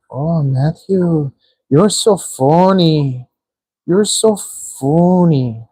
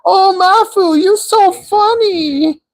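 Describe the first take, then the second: First: Slow, drawn-out teasing imitation of a girl; imitating a girl. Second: Very high, slow mock Chinese accent. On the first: Streamer retelling how a girl teased him, slowly. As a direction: stretch out the words lazily, lightly mimicking her. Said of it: "It was like". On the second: Streamer imitating a girl in a high mock Chinese accent. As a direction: drag out the tease in a squeaky Chinese accent. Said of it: "why am I doing a Chinese accent".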